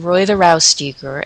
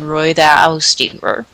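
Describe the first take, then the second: First: The street name is said plainly, without exaggeration. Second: The street name is said with exaggerated sounds. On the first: The speaker calls it wrong. "I was saying Roiðarástígur" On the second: The speaker calls it right. "I should have been saying Roiðarástígur"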